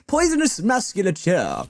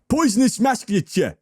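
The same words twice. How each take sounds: First: It is said in a posh-sounding accent. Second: It is said with a bit of cockney accent. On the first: "You see the way I said it?" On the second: "How can I say that in a non-posh way?"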